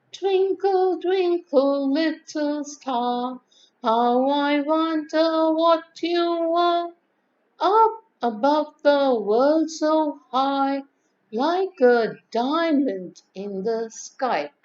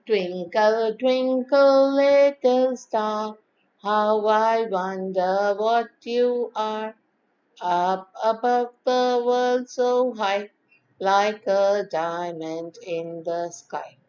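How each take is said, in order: First: Slow recitation, starting high and gradually coming down; modulated nursery rhyme. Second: Slow, level, unmodulated recitation; plain nursery rhyme. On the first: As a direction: recite slowly with expressive modulation, high at first. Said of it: "if you see with modulation". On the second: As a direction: recite slowly, holding each line on an even tone. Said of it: "taking a plain and simple nursery rhyme". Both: Shown as a demonstration.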